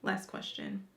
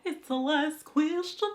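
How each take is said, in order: First: Soft unvoiced whisper; whispered echo. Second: Higher, louder and slow; loud announcement. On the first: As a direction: drop to a secret whisper. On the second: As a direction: call it out like a game show host. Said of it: "Last question, y'all". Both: Shown as a demonstration.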